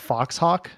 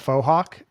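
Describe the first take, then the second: First: The first word is said like 'fox', with 'ks'. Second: The first word is said 'foe', with no 'ks'. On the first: The speaker calls it wrong. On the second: The speaker calls it right.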